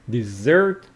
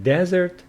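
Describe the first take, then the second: First: The stress is on the second syllable. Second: The stress is on the first syllable. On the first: It names a sweet food eaten after a meal. "So stress on the second syllable" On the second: It names a dry sandy place.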